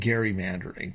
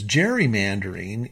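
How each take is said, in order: First: It begins with a hard g sound. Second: It begins with a soft j sound. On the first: The speaker calls it right. "is actually gerrymandering" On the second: The speaker calls it wrong. "It's just been mispronounced"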